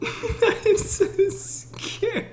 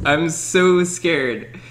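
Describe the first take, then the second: First: High, slow, laughing whimper; high drawn-out giggly fright; laughing scared whine. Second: Said in the usual way. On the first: Real, not acted. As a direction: squeak it out through nervous laughter.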